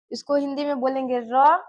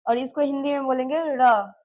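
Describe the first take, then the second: First: Final "र" with a simple tapped R; plain R sound. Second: Final "र" said as a flapped ड़; retroflex R sound. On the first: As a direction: say "र" as ra, tongue behind the teeth. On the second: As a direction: curl the tongue back for "र". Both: Shown as a demonstration. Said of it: "मैं जो बोल रही हूँ उस पे ध्यान देना".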